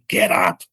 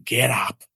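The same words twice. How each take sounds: First: Much higher, louder yelled command; yelling get up. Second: Mild mock yell, barely raised; retold yell. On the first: Retold or imitated. God yelling at him to get up, high yelled command. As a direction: bark it up high like a sudden shout from above. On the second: God calling him off the floor, mild mock yell. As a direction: voice a distant, half-raised command. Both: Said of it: "yelling at me saying".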